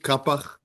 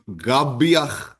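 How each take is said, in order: First: The name begins with a k sound. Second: The name begins with a g sound. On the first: This is how the name is said locally in Israel. "That's the way that it's pronounced here in Israel" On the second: This is the original pronunciation in the family's own accent. "the kuf in, in the Yemenite accent is more like a gimel"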